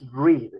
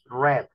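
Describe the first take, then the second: First: The vowel is a long 'ee' sound. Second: The vowel is a short 'e' sound. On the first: It is the base or present form. "Cuando estamos pronunciando forma base y presente, es read" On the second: It is the past or participle form. "pero cuando pronunciamos pasado y participio es red, como si estuviéramos pronunciando el rojo"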